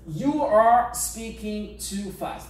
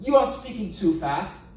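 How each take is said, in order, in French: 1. Chaque mot est prononcé lentement et séparément. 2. Les mots you are sont collés ensemble et prononcés vite. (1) "je parle doucement, je fais des séparations et tout" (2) "Mais dans la réalité"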